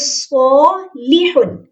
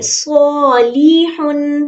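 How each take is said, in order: First: The vowel after the L is kept short. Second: The vowel after the L is drawn out long. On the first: The speaker calls it right. "ये सॉलीहुन... उसको लंबा नहीं करना" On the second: The speaker calls it wrong. "वो ऐसे पढ़ेंगे सॉलीहुन नहीं"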